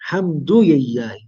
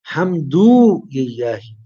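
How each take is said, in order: First: The vowel after hamd is kept short. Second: The vowel after hamd is drawn out long. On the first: The speaker calls it right. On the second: The speaker calls it wrong.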